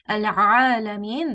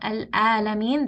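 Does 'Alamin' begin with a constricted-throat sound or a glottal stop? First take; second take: constricted; glottal stop. First: It begins with a constricted mid-throat sound. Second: It begins with a plain glottal stop. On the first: The speaker calls it right. "this is from the middle of the throat. This is Ain" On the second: The speaker calls it wrong. "this is Hamza"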